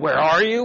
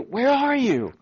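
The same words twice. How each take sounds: First: It sounds stern and accusing. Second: It sounds warm and affectionate.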